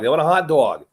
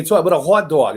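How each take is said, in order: First: Light East Coast accent on hot dog; a touch of mock East Coast speech. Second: Lightly put-on East Coast accent. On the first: Host repeats the hot dog example, East Coast accent. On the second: Host showing how the East Coast talks, East Coast accent. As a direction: say it with a hint of East Coast twang. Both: Shown as a demonstration. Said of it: "they go up that, that, that accent".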